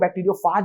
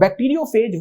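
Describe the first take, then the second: First: The last syllable sounds like 'fahj'. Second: The last syllable sounds like 'fayj'. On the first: "इसको बैक्टीरियोफाज भी बुलाते हैं, pronunciation का फर्क है थोड़ा सा" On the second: "बैक्टीरियोफेज वो चीज है"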